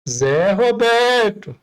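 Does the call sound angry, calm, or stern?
stern. The name is called out in a firmer tone. Patience is running out. "opa, tá estreitando"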